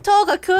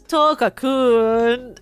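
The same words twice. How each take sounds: First: The name is said with an ordinary pitch. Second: The name is said with a falling pitch. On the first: "instead of" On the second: "I read it as down arrow Tokakun"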